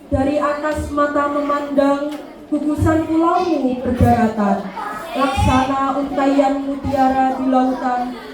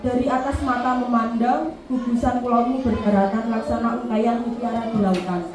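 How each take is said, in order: First: It is read expressively, like recited poetry. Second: It is read plainly, like ordinary prose.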